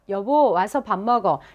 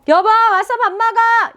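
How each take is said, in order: First: It is said in a lower pitch. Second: It is said in a high pitch.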